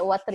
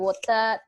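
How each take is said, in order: First: The final R is pronounced. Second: British accent, with the final R dropped.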